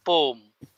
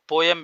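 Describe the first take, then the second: First: पोम said as one syllable, pohm, with no y glide; clipped poem pronunciation. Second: पोयम said in two syllables, po-yem; full poem pronunciation. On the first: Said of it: "इसको कुछ लोग पोम भी बोलते हैं". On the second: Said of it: "और पोयम भी बोलते हैं". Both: Shown as a demonstration.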